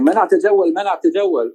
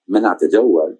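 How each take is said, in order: First: Mock megaphone announcement. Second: Said in the usual way. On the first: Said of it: "screaming something on a megaphone". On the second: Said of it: "I had no idea what the heck that even meant".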